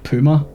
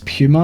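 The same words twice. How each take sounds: First: The first syllable has no 'pew' sound. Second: The first syllable sounds like 'pew'. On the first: The speaker calls it wrong. "not Puma. I think that's how Americans pronounce it" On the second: The speaker calls it right. "Puma with a pew"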